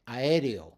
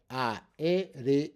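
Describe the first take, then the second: First: Said in the usual way. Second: "Aéreo" broken into a, e, re, o; separate syllables. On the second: Shown as a demonstration. Teacher showing how vowels split, "Aéreo" in separate syllables. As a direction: say "Aéreo" slowly, one syllable at a time. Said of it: "Those are all separate syllables".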